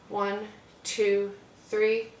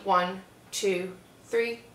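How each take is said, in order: First: The count is soft and relaxed. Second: The count is sharp and energetic. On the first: It sets up a calm, nostalgic first note. "same speed, but you want it to be very calm, tranquil, nostalgic" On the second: It sets up a punchy first note. "if you're playing something that was punchy"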